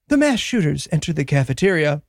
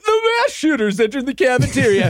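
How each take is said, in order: First: It is said in a grave, serious news tone. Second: It is said in a light, breezy news tone. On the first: The event is treated as a tragedy. "at various points, it'll be like" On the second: The event is treated like a routine news item. "But at other times, it'll be like"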